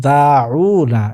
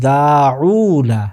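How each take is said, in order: Both takes have the same delivery.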